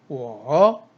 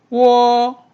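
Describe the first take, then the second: First: The pitch dips low then rises. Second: The pitch stays high and level.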